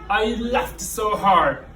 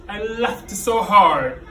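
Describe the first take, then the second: Both takes have the same delivery.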